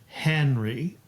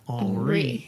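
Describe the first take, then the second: First: The stress is on the first syllable. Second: The stress is on the last syllable. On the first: This is the English pronunciation. "So in English" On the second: This is the French pronunciation. "In French"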